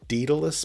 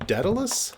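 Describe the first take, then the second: First: The name is said in a British way. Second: The name is said in an American way. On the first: "perhaps in the U K" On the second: "I think is how you pronounce it in America"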